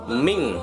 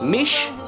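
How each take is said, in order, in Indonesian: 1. Bunyinya berakhir dengan bunyi ng sengau. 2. Bunyinya berakhir dengan bunyi sh. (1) "tetapi ming" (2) "bukan mish"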